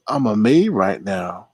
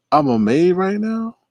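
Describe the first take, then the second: First: Said in the usual way. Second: High-pitched, disbelieving echo; incredulous. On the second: Real, not acted. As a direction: question it high, as if it makes no sense. Repeats message in disbelief.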